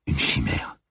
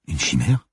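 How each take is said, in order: First: "Une chimère" as a falling statement; "Une chimère" stated with a final fall. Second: "Une chimère" with a sharp rise at the end; questioning echo. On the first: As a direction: confess "Une chimère", letting the pitch drop at the end. Woman confesses, partner echoes it questioningly. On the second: Partner echoes the word as question. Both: Acted.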